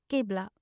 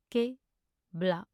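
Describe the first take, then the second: First: Said in the usual way. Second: Slow, two separated syllables. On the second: Shown as a demonstration. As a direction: pause between the syllables. Pronunciation guide, broken-down take.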